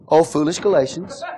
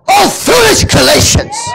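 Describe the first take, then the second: First: It is said in a calm, mild way. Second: It is said in a fiery, angry way.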